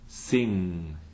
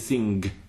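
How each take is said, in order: First: The ng ends cleanly with no k sound. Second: The ng is followed by a k sound. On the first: The speaker calls it right. "as in the English word for sing" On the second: The speaker calls it wrong. "You wouldn't say sing"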